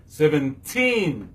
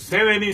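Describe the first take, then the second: First: Put-on Seventeen slowly, TEEN held long and falling; stress on last syllable. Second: Seventy with SEV stressed, reduced ending; stress on first syllable. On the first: Teacher contrasting with seventy, long stressed teen in Seventeen. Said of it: "Tin nan se la stress la tonbe". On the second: Teacher giving the meaning, stress on first syllable of Seventy. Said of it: "seventy se sou seven". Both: Shown as a demonstration.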